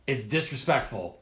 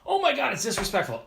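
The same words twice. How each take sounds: First: Said in the usual way. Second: High, indignant mock gasp; mocking outrage. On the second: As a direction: squeal it like an offended snob. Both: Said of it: "to be like".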